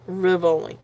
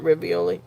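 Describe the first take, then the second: First: The word has three syllables, without the extra 'ee'. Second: The word has four syllables, with an extra 'ee'. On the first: The speaker calls it right. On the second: The speaker calls it wrong. "Not Rivioli"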